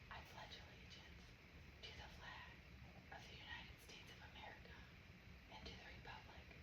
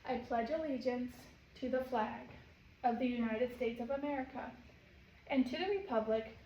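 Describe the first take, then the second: First: It is spoken in a whisper. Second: It is spoken in a normal voice.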